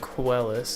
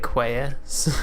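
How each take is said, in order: First: The middle consonant is pronounced as an L. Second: The middle consonant is pronounced as a Y. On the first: The speaker calls it right. "My name" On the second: The speaker calls it wrong. "because two L's make a Y in Spanish"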